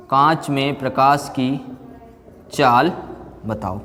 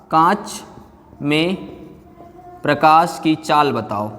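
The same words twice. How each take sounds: The two takes are said the same way.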